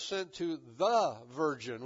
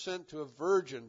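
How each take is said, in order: First: "the" drawn out and punched; single out "the" as the one specific article; stress on THE. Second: Said in the usual way. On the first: Shown as a demonstration. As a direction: lean hard on the word "the". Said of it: "with a definite article". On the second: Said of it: "it was slightly more specific".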